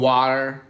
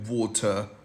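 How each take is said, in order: First: The word is said in an American accent. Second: The word is said in a British accent. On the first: "American बोलता है वार" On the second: "British उसे बोलता है वोटर"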